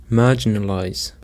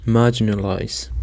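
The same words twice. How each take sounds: First: Marginalize with the stress on MAR; stress on first syllable. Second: Marginalize with the weight on MAR; stress on first syllable. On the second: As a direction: lean on MAR in marginalize, the rest lighter. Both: Shown as a demonstration. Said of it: "The stress is on the first syllable".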